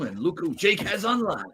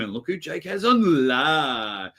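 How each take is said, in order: First: It is read in a put-on imitating voice. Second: It is read in the speaker's own plain voice. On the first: "Can you read it in his voice?" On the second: "It's hard to just read this"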